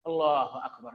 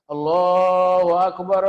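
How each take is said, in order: First: It is said in a plain, ordinary way. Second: It is said loudly and exaggerated.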